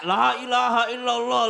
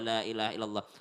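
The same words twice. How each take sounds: First: The phrase is shouted loudly. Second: The phrase is said gently and softly. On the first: The speaker calls it wrong. "Jadi dia teriak-teriak" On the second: The speaker calls it right. "usahakan selembut mungkin"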